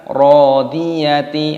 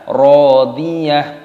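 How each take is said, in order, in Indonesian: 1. Kata ini berakhir dengan suku kata ti yang penuh. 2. Kata ini berakhir dengan bunyi h yang lembut. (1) "bukan rodiyati" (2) "maka dibaca rodiyah"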